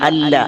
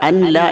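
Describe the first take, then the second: First: The n sound merges fully into the l. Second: The n sound is pronounced before the l. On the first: The speaker calls it right. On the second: The speaker calls it wrong.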